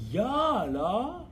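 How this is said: It is said in a surprised tone.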